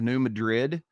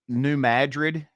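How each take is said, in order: First: It is pronounced the usual standard way. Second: It is pronounced the local regional way. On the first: The speaker calls it wrong. "instead of New Madrid" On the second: The speaker calls it right. "New Madrid instead of"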